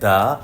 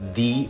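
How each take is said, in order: First: The word ends in a short uh vowel. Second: The word ends in a long ee vowel. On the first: The next word starts with a consonant. "Consonant দিয়ে শুরু হয় তাহলে দা" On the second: The next word starts with a vowel. "Vowel দিয়ে শুরু হয় তাহলে দি"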